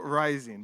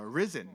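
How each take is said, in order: First: "rising" with a long "rai" sound, a bit louder. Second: "risen" with a short i, like the risen in "Jesus has risen". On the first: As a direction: Ryzen spoken as "rising", with a long ai. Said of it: "I call it rising". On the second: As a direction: Ryzen spoken as "risen", short i. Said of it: "is it Ryzen or Ryzen?". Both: Shown as a demonstration.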